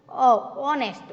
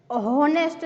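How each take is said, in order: First: Bare vowel "અ" first, then "ઓનેસ્ટ" without H; silent H. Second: "હોનેસ્ટ" with an audible H at the start; wrongly sounded H. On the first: Teacher correcting the error, "ઓનેસ્ટ" with silent H. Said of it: "silent". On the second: Teacher showing the wrong form, "હોનેસ્ટ" with H sounded. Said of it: "હોનેસ્ટ નથી". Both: Shown as a demonstration.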